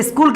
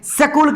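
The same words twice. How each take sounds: First: स्कूल said as "is-kool"; leading "is" sound. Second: स्कूल said as "sa-kool", vowel after the s; full "sa" sound. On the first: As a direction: begin स्कूल with a short "i". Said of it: "ये स्कूल क्यों बोल रहे हैं?". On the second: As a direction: open स्कूल on "sa", no leading "i". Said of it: "स्कूल क्यों नहीं बोल रहे हैं इसको?". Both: Shown as a demonstration.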